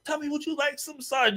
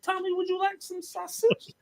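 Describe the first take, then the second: First: High mocking offer; teasing taunt. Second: High mocking singsong offer; teasing taunt. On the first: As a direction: taunt him sweetly, pitched up. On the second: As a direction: taunt him with a sweet, high voice. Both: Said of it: "I said".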